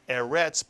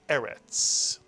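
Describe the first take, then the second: First: The stress is on the second syllable. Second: The stress is on the first syllable. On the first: The speaker calls it wrong. "this is not eretz" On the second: The speaker calls it right. "a word with two segols tends to be accented on the first syllable"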